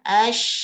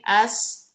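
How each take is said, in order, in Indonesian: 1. Udara menyebar di dalam mulut sebagai sh. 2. Udara mendesis di ujung lidah sebagai s. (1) "Menyebar ke seluruh mulut gitu. Makanya dia ash" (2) "Nggak boleh as, as, as di ujung nih"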